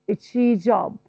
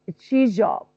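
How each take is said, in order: First: The z and sh merge into one zh sound. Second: The same.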